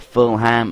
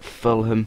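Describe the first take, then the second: First: It is said with an American pronunciation. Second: It is said with a British pronunciation.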